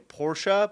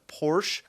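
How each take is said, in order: First: Porsche as POR-shah, slowed down; Americans' attempted version. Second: Porsche as PORSH; one-syllable version. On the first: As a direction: add a 'sha' ending to Porsche. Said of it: "they're going Porsche". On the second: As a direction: say Porsche with a silent final e. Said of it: "instead of Porsche". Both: Shown as a demonstration.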